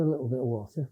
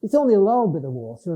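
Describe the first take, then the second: First: Said in the usual way. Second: "little" said as Cumbrian "lal"; quick Lake District lilt, "little" becoming "lal"; Cumbrian dialect. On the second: Shown as a demonstration. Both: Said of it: "I'd speak like that when I'm with them".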